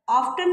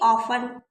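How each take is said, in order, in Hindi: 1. t की ध्वनि बोली जाती है। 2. t की ध्वनि साइलेंट है। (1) "ऑफ्टन नहीं पढ़ेंगे" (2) "टी साइलेंट है।"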